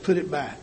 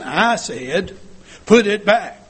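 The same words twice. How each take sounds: First: Said in the usual way. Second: Raised voice, higher and much louder; acted parent losing patience, louder on each word; loud stern command. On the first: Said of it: "The stronger I talk, the louder I talk". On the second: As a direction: order a child firmly and forcefully. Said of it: "The stronger I talk, the louder I talk, the meaner I look".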